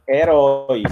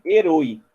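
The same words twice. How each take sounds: First: HERÓI with a wide open "ó", drawn out; o aberto. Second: HERÓI with a closed "o", like "e-rôi"; o fechado. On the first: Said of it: "Mas é herói". (herói com ó aberto e alongado) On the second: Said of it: "ia ficar o quê?". (herói pronunciado com ô fechado) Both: Shown as a demonstration.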